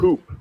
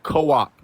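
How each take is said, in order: First: The name is said as one syllable. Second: The name is said as two syllables. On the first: The speaker calls it right. "My name is Coop" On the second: The speaker calls it wrong. "not co-op"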